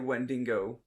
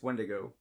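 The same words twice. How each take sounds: First: An extra n sound is added inside. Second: No extra n sound is added inside. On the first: The speaker calls it wrong. "a lot of people uh say Wendigo" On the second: The speaker calls it right. "but it's Wendigo"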